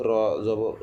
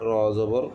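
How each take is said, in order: The two takes are said the same way.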